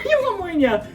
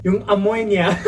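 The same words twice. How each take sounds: First: High, quicker comic repeat; high-pitched sped-up replay; squeaky replay. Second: Said in the usual way. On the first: Real, not acted. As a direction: echo it in a small, squeaky voice.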